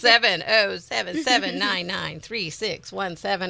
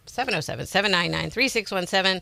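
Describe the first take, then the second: First: The number is said more slowly. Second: The number is said very quickly. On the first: The speaker calls it right. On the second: The speaker calls it wrong.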